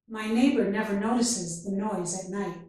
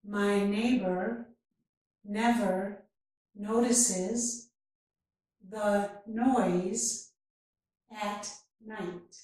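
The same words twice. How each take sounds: First: The sentence is spoken at natural speed. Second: The sentence is spoken very slowly. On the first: "and then at a more natural speed" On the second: "first very slowly"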